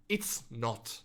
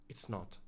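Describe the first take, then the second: First: Said in the usual way. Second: Much softer, lower repeat; quiet echo. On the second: Real, not acted. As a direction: let it fall away softly. Repeated, fading.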